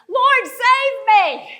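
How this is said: It is said with desperate urgency.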